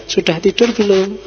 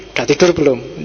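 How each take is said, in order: First: Friendly, caring question in a lilting tone; nice-sounding text message read aloud; pleasant reading. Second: Curt, lower-pitched question; unfriendly text message read aloud; unpleasant reading. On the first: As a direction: ask it kindly, like checking on someone. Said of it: "Nah, itu kan enak". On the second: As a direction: ask it brusquely, without any friendliness. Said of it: "Itu kan nggak enak". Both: Shown as a demonstration.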